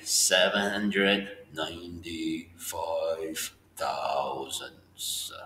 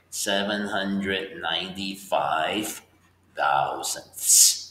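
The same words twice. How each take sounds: First: Drawn-out "Seven hundred ninety-five thousandths", each word stretched; teacher standing in for an edited slow-motion replay, stretching every word; very slow reading. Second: Slow, careful reading of the number; teacher reading a decimal aloud slowly. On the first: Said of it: "I'll say it like this". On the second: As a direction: read "Seven hundred ninety-five" slowly so students can follow. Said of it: "maybe I'll slow it down". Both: Shown as a demonstration.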